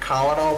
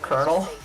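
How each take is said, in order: First: It is pronounced letter by letter, as spelled. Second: It is pronounced like the word 'kernel'. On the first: "the way it's written" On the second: "like colonel"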